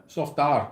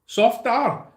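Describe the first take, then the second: First: Said in the usual way. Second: Wrong Scottish try. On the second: Shown as a demonstration. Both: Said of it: "No, that's wrong, isn't it?".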